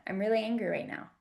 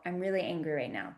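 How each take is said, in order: First: "I'm really angry right now" said quicker and higher, a firm outright declaration. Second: Said in the usual way. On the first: Shown as a demonstration. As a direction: state "really" plainly and firmly as a fact. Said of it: "just declaring it in the moment". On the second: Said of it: "just declaring it".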